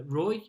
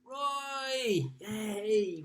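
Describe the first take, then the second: First: Said in the usual way. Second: High, drawn-out cheer; excited cheer. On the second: Real, not acted. Host greeting Roy's quiz score, high celebratory cheer. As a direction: cheer the name like a fan. Cheers the name just read out.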